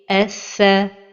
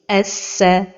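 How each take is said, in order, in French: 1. La consonne doublée sonne comme th. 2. La consonne doublée sonne comme s. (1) "la prononciation correcte est" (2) "un son qui ressemble au son de la lettre Sin"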